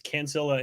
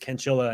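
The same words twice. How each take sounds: First: The name is said with an American pronunciation. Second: The name is said with an Italian pronunciation. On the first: "it's Cancilla in the United States" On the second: "in Italy, it's Cancilla"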